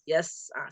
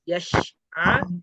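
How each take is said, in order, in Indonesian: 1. Bunyi s-nya s biasa, santai. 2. Bunyi s seperti sh, dengan lidah tegang. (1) "yang betul se seharusnya" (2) "Tadi terdengarnya seperti shin"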